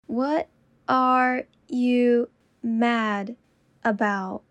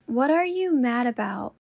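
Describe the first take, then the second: First: Slow, each word apart. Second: Said in the usual way. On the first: Shown as a demonstration. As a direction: say it slowly, word by word. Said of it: "repetition drill, slowed take". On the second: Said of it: "repetition drill, normal take".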